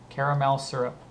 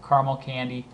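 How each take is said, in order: First: "caramel" in three full syllables, CARE-uh-mel. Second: "caramel" squeezed to two syllables, CAR-mul. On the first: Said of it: "If it's the syrup that you pour". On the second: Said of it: "if it's a little candy". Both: Shown as a demonstration.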